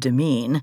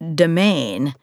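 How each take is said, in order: First: The word sounds like 'demean'. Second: The word sounds like 'domain'. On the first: The speaker calls it wrong. "I would have said it was pronounced demean" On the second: The speaker calls it right. "but of course it's not"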